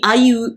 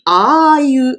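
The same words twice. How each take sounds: First: The vowel sound is a single short glide. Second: The vowel sound is held as a double vowel. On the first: The speaker calls it wrong. "il dit aïe" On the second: The speaker calls it right. "mais on dit aïe, donc ah, ça c'est double voyelle"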